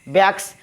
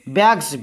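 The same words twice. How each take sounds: First: The word ends with a hissing s sound. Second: The word ends with a buzzing z sound. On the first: The speaker calls it wrong. "बहुत लोग इसको पढ़ते हैं बैग्स बैग्स, लेकिन गलत है ये" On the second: The speaker calls it right. "यस जो है ज ध्वनि उत्पन्न करता है"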